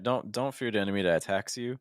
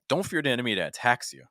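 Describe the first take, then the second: First: The pitch rises at the end of the sentence. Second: The pitch falls at the end of the sentence. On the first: There is more still to come. "That rising intonation implies that there's more coming" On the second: The statement is firm and authoritative. "Another option could have been a falling intonation"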